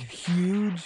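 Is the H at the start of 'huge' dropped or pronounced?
pronounced. It is said with a clear H sound.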